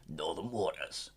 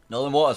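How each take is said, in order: First: It is said in a put-on voice. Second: It is said in a normal voice.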